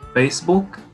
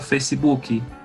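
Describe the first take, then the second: First: The word ends on the final k sound. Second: An extra i vowel follows the final k.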